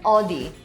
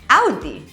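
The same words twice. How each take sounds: First: The first vowel is not a pained 'ow' sound. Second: The first vowel sounds like a pained 'ow'. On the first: The speaker calls it wrong. "this isn't Audi" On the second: The speaker calls it right. "say it like someone's pinching you"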